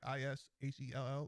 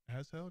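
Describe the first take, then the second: First: It is run together as 'ishell' with an 'i' vowel. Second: It is said as 'as hell' with an 'a' vowel. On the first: This is how people in Jersey say it. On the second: This is the way the speaker insists it should be said. "I'm like, as hell"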